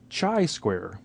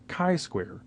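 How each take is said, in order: First: Chi begins with a ch sound, like chai. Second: Chi begins with a k sound, like kite. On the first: The speaker calls it wrong. "or chai as in chai tea. It's not chai square" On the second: The speaker calls it right. "It is chi-square as in kite"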